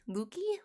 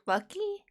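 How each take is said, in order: First: LUKEY said softly with a long OO, as a question; trying out pronunciation. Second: LUCKY with a short U, pitched high as a question; high questioning Lucky, rhymes with ducky; trying out pronunciation. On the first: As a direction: try Lukey as "LOO-key", unsure. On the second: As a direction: try Lucky as "LUCK-ee", voice lifting. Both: Real, not acted. Trying out a viewer's name.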